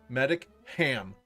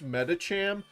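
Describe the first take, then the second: First: It is said as two words, medic plus ham. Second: It is said as one word with a ch sound.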